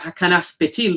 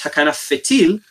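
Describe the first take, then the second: First: The second word begins with a p sound. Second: The second word begins with an f sound. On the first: This is how it is read today. "Nowadays we have hakanaf petil" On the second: This is how it was read in ancient times. "in the original pronunciation, in the time of the Talmud ... really it was hakanaf fetil"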